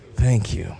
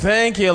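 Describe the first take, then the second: First: It sounds sincere and heartfelt. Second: It sounds insincere and put on.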